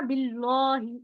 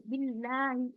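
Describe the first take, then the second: First: "बिल्लाही" said as "bilohi" with a thick lam, wrongly; wrong heavy lam. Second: "बिल्लाही" with a thin, normal lam after the kasra; light lam. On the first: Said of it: "इस तरीके से तो हम नहीं पढ़ रहे ना". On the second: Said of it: "बिल्लाही normal". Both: Shown as a demonstration.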